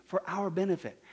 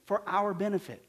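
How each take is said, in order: Both takes have the same delivery.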